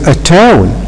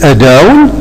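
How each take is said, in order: First: The middle consonant sounds like a t. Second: The middle consonant sounds like a d. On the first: The speaker calls it right. "No, we have to say a tone" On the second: The speaker calls it wrong. "Is it possible to say a down because t is placed be between two vowels?"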